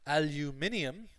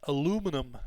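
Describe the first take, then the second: First: It is said with a British accent. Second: It is said with an American accent. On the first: "the E U, like the British Irish pronunciation" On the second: "the American Canadian pronunciation"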